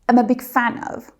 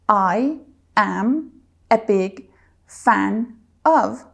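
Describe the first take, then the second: First: The words run together in one smooth chunk. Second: Each word is said separately, one by one. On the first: The speaker calls it right. "There are more flow and it's said fluently" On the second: The speaker calls it wrong. "I don't say"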